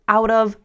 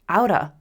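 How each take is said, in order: First: Both words are said fully and separately. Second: The words blend into one reduced word.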